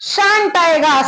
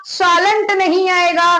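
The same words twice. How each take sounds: First: "shan't" said firmly with a falling close; right form. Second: "shalln't" said slowly as the wrong form to avoid. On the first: Teacher giving students the right form "shan't". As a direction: settle on "shan't" as the correct word. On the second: Teacher showing students the wrong form "shalln't". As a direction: spell out "shalln't" deliberately, marked wrong. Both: Shown as a demonstration.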